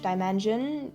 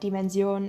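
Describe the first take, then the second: First: The word is pronounced the English way. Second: The word is pronounced the German way. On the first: "as you say in English" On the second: "you're saying uh, Dimension in German"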